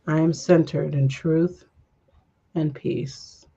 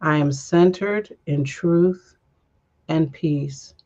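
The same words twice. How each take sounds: First: Calm affirmation. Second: Slow affirmation. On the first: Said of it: "affirmation during breath". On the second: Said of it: "last breath affirmation". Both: Shown as a demonstration.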